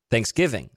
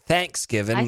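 First: The stress falls on the second part, giving. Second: The stress falls on the first part, thanks. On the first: This is how most people say it. "That's how most people say Thanksgiving" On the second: This is how many Southerners say it. "They put the emphasis on the thanks instead of the given"

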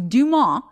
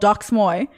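First: The name is said with a French-style pronunciation. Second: The name is said with an English-style pronunciation. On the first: The speaker calls it right. "It sounds way more French, way more classy" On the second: The speaker calls it wrong. "I thought the Instagram was called Dox Moy"

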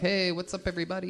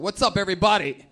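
First: The greeting is said softly, without projecting. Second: The greeting is said loudly, strongly projected.

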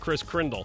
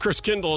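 First: The name is said with an extra R sound. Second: The name is said without an extra R sound. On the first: The speaker calls it wrong. "You added an R there" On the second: The speaker calls it right. "I believe it's Kris Kringle"

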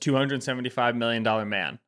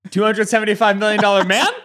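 First: The voice falls at the end like a statement. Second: The voice rises at the end like a question. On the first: It is a confident claim. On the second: The claim is now in doubt.

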